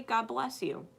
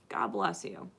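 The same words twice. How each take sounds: First: Said in the usual way. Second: Much lower, solemn God bless you; mock-solemn low blessing. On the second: Speaker blessing arguers, mock-solemn and low.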